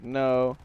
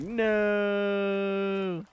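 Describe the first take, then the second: First: Said in the usual way. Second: Long, high drawn-out no; hammed-up wail, stretched right out; exaggerated denial. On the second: Hammed-up answer, retold plainly after.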